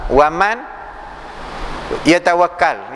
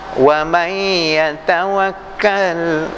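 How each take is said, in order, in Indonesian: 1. Huruf n diucapkan dengan jelas sebelum y. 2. Huruf n menyatu secara sengau ke dalam y. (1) "Jangan kita baca wa man yatawakkal" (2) "dia masuk di dalam. Yang tu wajibul ghunnah"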